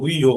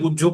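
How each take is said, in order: First: The middle sounds like an h before y. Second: The middle sounds like a doubled j sound. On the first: This is the Sanskrit reading. "সংস্কৃততে পড়লে গুইহই পড়বো" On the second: This is the Bengali reading. "বাংলায় পড়লে গুহ্য পড়বো"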